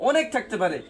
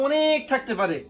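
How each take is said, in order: The two takes are said the same way.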